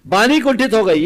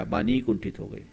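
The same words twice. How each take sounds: First: Very loud, high-pitched repeat; emphatic proclamation. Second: Said in the usual way. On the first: Acted. Preacher driving the moral into listeners, loud and emphatic. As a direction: hammer the point home at full voice. Repeats the outcome at full force.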